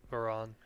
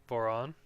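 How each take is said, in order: No difference in how they are said.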